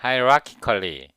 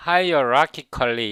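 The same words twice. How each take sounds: First: Hierarchically said slowly as ai-ra-ki-ka-li; correct pronunciation, slow. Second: Hierarchically said as a-io-ra-ki-kal-li, the mistaken way; old wrong pronunciation. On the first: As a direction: spell out hierarchically as ai-ra-ki-ka-li, carefully. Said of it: "그게 아니고 hierarchically". (천천히 또박또박 아이라키컬리) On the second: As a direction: say hierarchically with the extra io sound. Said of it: "hierarchically 이렇게 발음했는데". (잘못 배운 아이오라키컬리 발음) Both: Shown as a demonstration.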